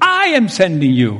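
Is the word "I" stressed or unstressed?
stressed. The word I is strongly stressed.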